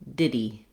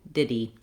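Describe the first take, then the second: The two takes are said the same way.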